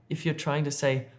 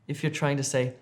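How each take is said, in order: The two takes are said the same way.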